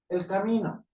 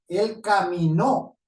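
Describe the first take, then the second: First: The stress falls on the middle syllable. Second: The stress falls on the last syllable. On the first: It names a path. "A un camino, a un camino de un sendero" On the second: Someone walked. "Una persona que caminó"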